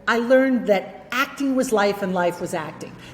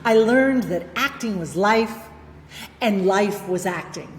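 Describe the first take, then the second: First: The sentence is said without a pause. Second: There is a pause in the middle. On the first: "That's good" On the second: "pause there to be emphatic"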